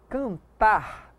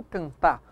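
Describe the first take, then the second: First: "cantar" drawn out to a clear final R; slow, careful "cantar" keeping the last R; final R pronounced. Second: "cantar" ending on an open A, can-TÁ; final R dropped. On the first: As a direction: finish "cantar" on a sounded R. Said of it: "pronunciando o R". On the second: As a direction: leave the last R off "cantar". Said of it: "e não cantar". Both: Shown as a demonstration.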